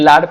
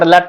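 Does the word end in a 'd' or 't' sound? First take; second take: d; t. First: The word ends with a 'd' sound. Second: The word ends with a 't' sound. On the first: The speaker calls it right. "Actually ଲାଡ ପିଲେ ଠିକ" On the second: The speaker calls it wrong. "ବଡ ଲାଟ ଟା ଭୁଲ"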